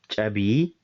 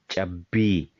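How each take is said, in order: First: The b is short and light, not held. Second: The b is strong and held, doubled. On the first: The speaker calls it wrong. "It is not Chabi" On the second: The speaker calls it right. "but it is Chabi"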